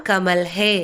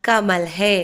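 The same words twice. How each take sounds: No difference in how they are said.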